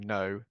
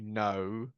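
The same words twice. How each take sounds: First: The O sound is short and plain. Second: The O sound is drawn out and long. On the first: "rather than saying" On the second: "they often elongate O sounds"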